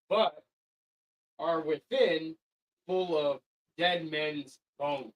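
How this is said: It is read with pauses between phrases.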